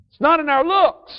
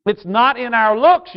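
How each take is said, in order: First: "It's not in our looks" said again much higher, falling hard on "looks"; pitched-up repeat. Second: Said in the usual way. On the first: Shown as a demonstration. Preacher telling young people their worth, repeated high with emphasis. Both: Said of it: "young people".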